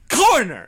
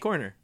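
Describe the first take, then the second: First: The first sound is said harshly and forcefully. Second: The first sound is said softly and gently. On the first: "pronounce corner with a C. ... Put a little more stank on it" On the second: "Pronounce it with a K"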